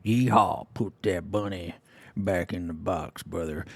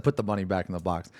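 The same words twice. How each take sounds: First: A lightly done, self-mocking Southern drawl, slower and softer; bad Southern accent. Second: Said in the usual way. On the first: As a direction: fake Southern twang, half-hearted. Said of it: "I can't even do a Southern accent". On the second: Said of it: "he didn't say that, but he said".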